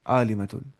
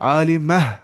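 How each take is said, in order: First: The word ends with a t sound and -un. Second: The word ends with a soft h sound. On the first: This is the full form, without stopping. "असल में होता है ये आलिमतुन" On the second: This is the form used when pausing at the end. "इसकी आवाज हा जैसी आ जाती है, हम बोलते हैं आलिमह"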